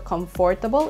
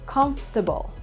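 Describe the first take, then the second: First: The middle syllable 'for' is fully pronounced. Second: The middle syllable 'for' is left out. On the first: The speaker calls it wrong. "Hindi siya comfortable" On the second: The speaker calls it right. "we omit one of the syllables. Yung sa gitna, yung for"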